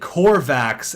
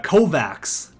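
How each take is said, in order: First: The first syllable has an R sound. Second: The first syllable has no R sound. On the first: The speaker calls it wrong. "I don't know how I got the R there" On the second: The speaker calls it right. "It's not Corvax"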